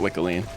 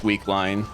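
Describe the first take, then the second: First: The first syllable has a short 'i' vowel. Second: The first syllable has a long 'ee' vowel. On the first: This is the preferred pronunciation. "I'm going to keep calling it Wickeline" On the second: Someone else pronounces it this way. "Doctor Naja pronounces this Weakline"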